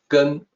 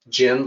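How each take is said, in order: First: The vowel sounds like 'uh' in 'gun'. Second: The vowel sounds like 'eh' in 'generation'. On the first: The speaker calls it right. "actually it's closer to to gun" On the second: The speaker calls it wrong. "The second sound is not gen like generation"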